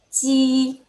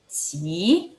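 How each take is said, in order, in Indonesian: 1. Diucapkan dengan nada pertama. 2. Diucapkan dengan nada kedua. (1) "nada satu" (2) "nada dua"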